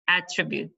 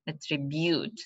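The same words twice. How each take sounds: First: "Attribute" as the noun, AT-tribute; first-syllable stress. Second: "attribute" as the verb, stress moved towards the end; later stress. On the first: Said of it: "on the first syllable". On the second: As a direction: shift the weight of "attribute" off the first syllable. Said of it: "The stress is on the last". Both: Shown as a demonstration.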